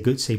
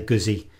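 First: It is said with an Italian pronunciation. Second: It is said with an English pronunciation. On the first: "the Italian way you say gutsy" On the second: "the English way is you'd say Guzzi"

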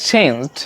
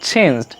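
No difference in how they are said.

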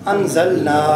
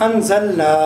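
The two takes are said the same way.

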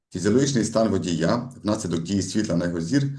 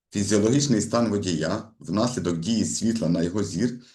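Both takes have the same delivery.

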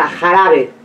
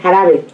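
First: The J is pronounced with a strong, harsh sound. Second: The J is pronounced with a softer sound. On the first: This is how locals here say it. "Y nosotros decimos, por ejemplo, la J, jarabe" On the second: This is how people from another area say it. "Como más suave"

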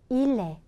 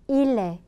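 No difference in how they are said.

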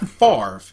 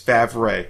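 First: The R sound comes before the V sound. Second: The R sound comes after the V sound. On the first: The name is said the accepted way, against its spelling. The speaker calls it wrong. "It's not Favre" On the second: The name is said the way it is spelled. The speaker calls it right. "Your name is Favre"

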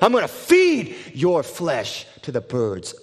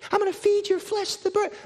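First: It is shouted in a deep voice. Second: It is shouted in a small boyish voice. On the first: A huge armored giant is threatening. "screaming with a deep voice" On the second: A small boy is threatening, which sounds laughable. "he's got this little boy voice saying this"

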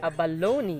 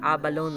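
First: The stress is on the third syllable. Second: The stress is not on the third syllable. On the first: The speaker calls it right. "The stress falls on the third syllable" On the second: The speaker calls it wrong. "Most of the time, binabasa natin yan na abalon"

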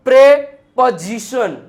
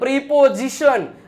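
First: The first syllable has an 'eh' vowel. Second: The first syllable has an 'ee' vowel. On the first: The speaker calls it right. "જો પ્રેપોઝિશન" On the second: The speaker calls it wrong. "પ્રિપોઝિશન નો હોય"

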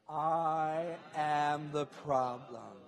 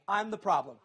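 First: It is said slowly, word by word. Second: It is said at a normal, quicker pace. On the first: "Let's go a little slower" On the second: "Say it with me"

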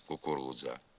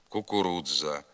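First: The дз is one merged sound. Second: The дз is split into two separate sounds. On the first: The speaker calls it right. "замість" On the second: The speaker calls it wrong. "вимовляється не один звук, а два"

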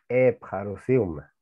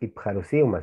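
First: The first vowel sounds like e. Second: The first vowel sounds like i. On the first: The speaker calls it right. "sino Epharusiuma" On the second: The speaker calls it wrong. "no podemos decir Ipharusiuma"

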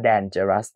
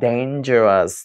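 First: The first syllable is said like 'dan'. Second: The first syllable is not said like 'dan'. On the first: The speaker calls it wrong. "คนไทยส่วนใหญ่นะครับจะอ่านว่า... เพราะมันเติมตามตัว D A N dan ไง" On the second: The speaker calls it right. "in English actually we pronounce"

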